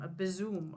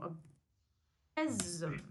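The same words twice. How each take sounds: First: "besom" tried as "BEZ-um", questioning; besom pronounced. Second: "besom" drawn out very slowly as "BEZ-um"; besom pronounced slowly. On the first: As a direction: test out "besom", stress on first syllable. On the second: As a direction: stretch "besom" out slowly and deliberately. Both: Shown as a demonstration. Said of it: "just for everyone's education".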